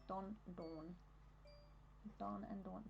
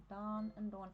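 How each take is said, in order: First: Short rounded O in Don, long AW in Dawn; distinct Australian vowels. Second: Don with open AH, close to Dawn; American vowels. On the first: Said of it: "Don and Dawn are pronounced distinctly". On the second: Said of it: "ots in American accents more Don". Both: Shown as a demonstration.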